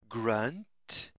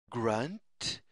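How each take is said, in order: Both takes have the same delivery.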